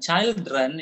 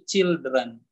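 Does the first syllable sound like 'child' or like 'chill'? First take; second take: child; chill. First: The first syllable sounds like the word child. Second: The first syllable sounds like the word chill. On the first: The speaker calls it wrong. "itu sudah bukan children ya" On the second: The speaker calls it right. "tapi children"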